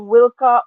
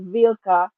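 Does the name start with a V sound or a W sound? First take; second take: W sound; V sound. First: The name starts with a W sound. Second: The name starts with a V sound. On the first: This is the original pronunciation of the name. "Originally, it's pronounced Wilka" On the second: This is a playful variant of the name. "I like the Vilka thing because I'm a fan of Star Wars"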